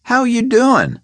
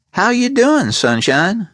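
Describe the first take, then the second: First: High, pointed repeat of the question, leaning on doing; a thug who won't ask a third time; menacing repeat. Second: High, falsely friendly gangster voice; a high, pleasant menace; pleasant gangster Gold. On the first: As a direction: ask again as a warning. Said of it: "he repeated". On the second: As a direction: greet him like a smiling thug. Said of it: "Gold asked pleasantly". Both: A narrator's reading.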